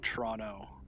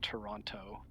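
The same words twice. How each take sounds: First: The name is said in another clipped local way. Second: The name is said fully, with every sound. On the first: This is how locals say it. "or Toronto" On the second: This is not how locals say it. "not Toronto"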